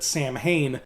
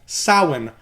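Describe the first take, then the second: First: It is said the way it is spelled. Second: It is said differently from its spelling. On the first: The speaker calls it wrong. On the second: The speaker calls it right.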